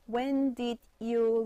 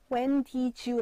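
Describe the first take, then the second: First: Each word is said crisply and separately. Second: The words are run together smoothly. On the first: "되게 깔끔하게 탁탁탁 이렇게 깔끔하게 발음하거든요" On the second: "발음 안 한다?"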